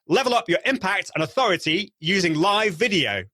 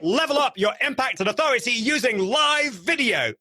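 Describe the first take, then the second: First: It is said with noticeably raised energy. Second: It is said with very high, over-the-top energy.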